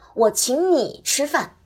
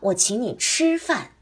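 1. 重音落在“你”上。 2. 重音落在“吃”上。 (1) "而第三句把重音放在了你字上" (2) "第二个把重音放在了吃字上"

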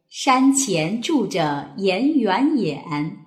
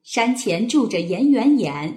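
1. 读得慢，用来熟悉。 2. 读得快。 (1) "先来熟悉一遍" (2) "加快速度"

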